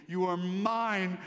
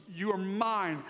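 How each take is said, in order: Both takes have the same delivery.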